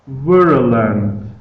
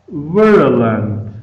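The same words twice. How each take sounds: Both takes have the same delivery.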